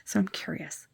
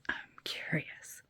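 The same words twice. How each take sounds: First: Said in the usual way. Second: Slow, breathy whisper of curiosity. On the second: Shown as a demonstration. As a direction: whisper it slowly, teasing. Repeats it in a whisper.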